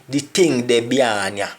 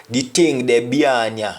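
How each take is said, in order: No difference in how they are said.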